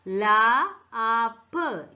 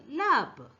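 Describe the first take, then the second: First: "ലാ ആപ്പ്" slowly split into loud separate sounds; "ലാ ആപ്പ്" drawn out sound by sound. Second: Said in the usual way. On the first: Shown as a demonstration. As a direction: stretch "ലാ", then "ആപ്പ്", like a phonics teacher. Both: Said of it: "T pronounce ചെയ്യുന്ന".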